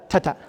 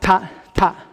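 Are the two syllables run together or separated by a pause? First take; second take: run together; separated. First: The two syllables are run quickly together. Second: The two syllables are separated by a pause. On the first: The speaker calls it right. "think of this as a ta-ta" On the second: The speaker calls it wrong. "This is not ta, ta, not like that"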